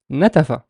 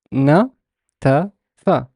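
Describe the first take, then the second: First: Said in the usual way. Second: Na-ta-fa very slow, a pause after each syllable; teacher sounding out na-ta-fa slowly. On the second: Shown as a demonstration. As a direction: break it into na, ta, fa. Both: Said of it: "I kind of stress some vowels more than others".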